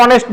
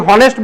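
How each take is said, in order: First: "অনেস্ট" opening on the vowel, no h; silent H. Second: "হনেস্ট" with the h sounded. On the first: Teacher shows class the usual form, "অনেস্ট" without h. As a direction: drop the h in "অনেস্ট". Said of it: "এইচ এর উচ্চারণটা অ এর মতো হচ্ছে". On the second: Teacher shows class the form not used, "হনেস্ট" with h. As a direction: say "হনেস্ট" starting on an audible h. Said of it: "হনেস্ট বলি না অনেস্ট বলি". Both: Shown as a demonstration.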